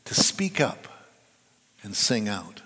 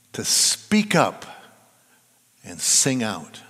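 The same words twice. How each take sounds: First: Hushed, breathy whisper on speak up; whispered urging. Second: Emphatic urging. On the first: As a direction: whisper it, then let sing out settle low. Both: Shown as a demonstration. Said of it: "That's what the Psalms urge us to do".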